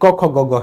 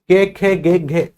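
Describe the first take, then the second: First: Each consonant is followed by an 'o' vowel. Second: Each consonant is followed by an 'e' vowel. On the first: "जो लोग पूर्वी उत्तर प्रदेश में रहते होंगे वो इसको बोलते होंगे" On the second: "अगर आप ऐसे बोलते हैं इनको"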